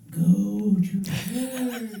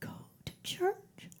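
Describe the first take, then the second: First: It is said loudly. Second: It is said softly.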